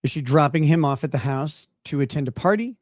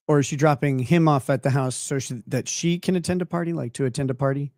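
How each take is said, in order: First: Party stressed with a rising question tune. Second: Him and then can each hit hard; stress on him and can. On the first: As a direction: lean on the word party and lift it. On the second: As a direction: punch him, then can, to split the meaning. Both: Shown as a demonstration. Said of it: "it's ambiguous as to who is attending".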